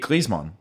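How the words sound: The name is said with a German pronunciation. "originally it would be Griezmann. Like in German"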